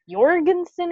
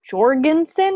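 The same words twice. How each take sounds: First: The name begins with a Y sound. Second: The name begins with a J sound.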